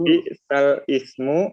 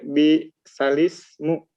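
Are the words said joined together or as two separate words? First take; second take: separate; joined. First: It is said as two separate words. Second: It is said as one joined word. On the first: This is how the text is written. "tulisannya ya, ada juga yang bisal ismu" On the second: This is how the text is actually read. "dibacanya bisalismu"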